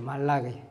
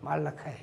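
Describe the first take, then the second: First: The name is said as Korean Malagi. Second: The name is said as English Malachi.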